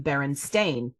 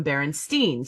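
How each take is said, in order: First: Berenstain ending in "stain"; Berenstain, last syllable rhyming with "rain"; A-I-N pronunciation. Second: Berenstein ending in "steen"; Berenstein, last syllable rhyming with "seen"; usual childhood pronunciation. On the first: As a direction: say Berenstain with a long A at the end. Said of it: "the A I N". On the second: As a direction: say Berenstein with a long E at the end. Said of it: "I called them Berenstein". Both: Shown as a demonstration.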